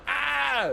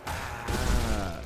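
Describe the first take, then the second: First: "Ah" as a sharp, much higher pained cry; high yelp. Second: Low groan. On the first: Showing chat the yelp he did not do, a high "Ah". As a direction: yelp "Ah" up high like a big drama. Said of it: "I wasn't going". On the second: Showing chat the low "Ah" he really made at the sink. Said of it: "but I was going". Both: Shown as a demonstration.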